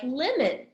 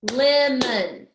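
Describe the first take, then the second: First: Said in the usual way. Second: Lemon loud, split LEM-on; loud, measured "Lemon", beat by beat; two clapped syllables. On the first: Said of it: "a word like lemon". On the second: Shown as a demonstration. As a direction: clap out "Lemon" in two strong beats. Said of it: "Let's clap it".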